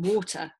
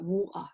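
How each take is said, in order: First: It is said in a middle-class British accent. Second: It is said in a working-class British accent. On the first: This is the form the parents use at home. "rather than water" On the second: The child has picked it up from carers at nursery. "children start talking about water"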